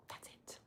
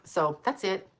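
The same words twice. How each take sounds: First: Breathy whispered sign-off; a soft closing whisper. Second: Said in the usual way. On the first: Real, not acted. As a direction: whisper the last words as if fading out. Signing off, repeats phrase.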